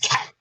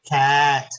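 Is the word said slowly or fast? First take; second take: fast; slowly. First: The word is said quickly. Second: The word is stretched out slowly.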